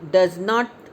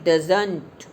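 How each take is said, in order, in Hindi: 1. दो पूरे शब्द, does और not। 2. एक छोटा शब्द, जो nt पर खत्म होता है। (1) "डज नॉट की जगह"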